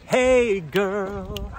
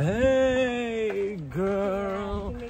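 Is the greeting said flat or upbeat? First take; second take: upbeat; flat. First: It is said in a bright, upbeat way. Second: It is said in a flat, dull way.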